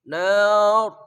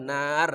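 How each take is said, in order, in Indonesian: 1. Bunyi r-nya tebal dan berat. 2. Bunyi r-nya tipis dan ringan. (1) "rohnya tebal. Tafkhim" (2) "enggak boleh nar ya"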